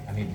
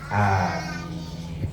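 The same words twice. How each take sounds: First: Both vowels are kept short. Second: Both vowels are held long. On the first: "biasanya pendek ya" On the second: "A-nya panjang, min-nya panjang"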